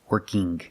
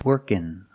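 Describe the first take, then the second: First: It ends with an audible hard g. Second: It ends in a plain n sound. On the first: The speaker calls it wrong. "But I cannot say working, This is not correct" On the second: The speaker calls it right. "Or I can make the N sound"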